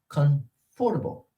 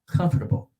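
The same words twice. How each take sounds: First: Every syllable is fully and separately pronounced. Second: The middle syllables are reduced and swallowed. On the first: This is how Spanish or French speakers say it. "Spanish speakers or French speakers speakers uh, will normally say" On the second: This is how native speakers say it. "We do kind of eat those"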